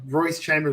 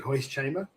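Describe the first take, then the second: First: The name begins with an R sound. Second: The name begins with an H sound.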